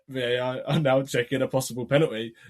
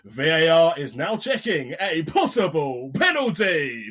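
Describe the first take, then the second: First: It is said in a flat monotone. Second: It is said with excited, eager energy.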